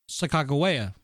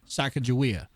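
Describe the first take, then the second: First: The name is said in its newer form. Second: The name is said in its familiar form. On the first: The name is said as scholars and the tribe say it. The speaker calls it right. "I'm now gonna call her Sacagawea" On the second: The name is said as people learned it growing up. The speaker calls it wrong. "versus Sacagawea"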